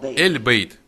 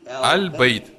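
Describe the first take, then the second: First: The first vowel is an 'eh' sound. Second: The first vowel is an open 'ah' sound.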